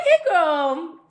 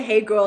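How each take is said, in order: First: Put-on high, bright "Hey, girl" with a lifted rise; sing-song high hey girl; squealed greeting. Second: Said in the usual way. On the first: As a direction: greet her like an excited old friend. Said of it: "I didn't say, "Hey, girl," like that". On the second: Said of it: "like that".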